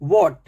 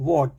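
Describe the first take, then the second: First: What with a voiced h; व्हाट, एच बोलते हुए; h pronounced. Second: What said as wot, no h; व्हाट में एच नहीं, वॉट; silent h. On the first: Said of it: "what नहीं". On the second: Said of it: "ऐसे आप बोलना है". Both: Shown as a demonstration.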